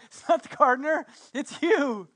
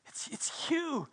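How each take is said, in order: First: Excited realization. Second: Stunned realization. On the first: Mary realizes it's Jesus. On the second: Mary recognizes Jesus in awe. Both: Acted.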